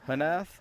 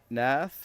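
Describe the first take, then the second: First: The name starts with an audible H sound. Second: The name starts without an H sound.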